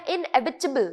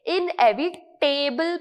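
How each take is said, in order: First: इनएविटेबल as "in-EV-i-tuh-bul"; correct pronunciation. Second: इनएविटेबल with the ending said like "table"; common wrong pronunciation. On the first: Shown as a demonstration. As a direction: end इनएविटेबल in a short, unstressed "tibul", not "table". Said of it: "किस तरीके से pronounce करना है". (इनएविटेबल का अंत हल्के "टिबल" से, सही उच्चारण) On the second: Retold or imitated. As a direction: mispronounce इनएविटेबल, a long "tay-bul" at the end. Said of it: "जो कि रॉन्ग है". (इनएविटेबल को "इन-एवि-टेबल" जैसा गलत बोलें)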